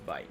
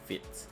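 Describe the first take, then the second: First: It is said the way the English spelling suggests. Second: It is said with a French pronunciation. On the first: The speaker calls it wrong. "the spelling of the word it seems like it's Vite" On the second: The speaker calls it right. "it's actually French, so it's actually Vite"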